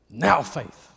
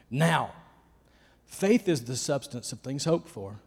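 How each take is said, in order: First: "Now faith" is said together without a pause. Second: There is a pause right after "now". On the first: The faith is present-moment faith. "But now I understand to read it this way" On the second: "Now" only introduces the sentence. "I used to read it this way"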